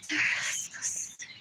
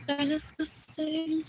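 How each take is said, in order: First: Breathy whisper of disgust. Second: Said in the usual way. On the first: Acted. Whispering to the camera about them. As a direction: hiss it under the breath. Repeated phrase, whispered take.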